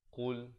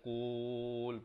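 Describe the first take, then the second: First: The vowel is kept short. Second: The vowel is drawn out long. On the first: The speaker calls it right. "Bunyi gitu saja" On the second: The speaker calls it wrong. "Jangan qul panjangkan tak mau"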